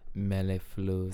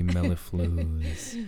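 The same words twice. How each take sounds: First: It is said in his normal voice. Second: It is said in a smooth jazz radio-host voice.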